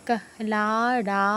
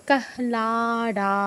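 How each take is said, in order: The two takes are said the same way.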